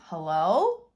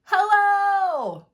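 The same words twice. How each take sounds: First: "Hello?" with a questioning rise, a bit louder; asking. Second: "Hello?" yelled much higher and louder, stretched out; yelling. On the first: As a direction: ask "Hello?" into the dark. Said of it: "Will he be asking". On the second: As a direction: call "Hello?" out at full voice. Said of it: "Will he be yelling". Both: Shown as a demonstration.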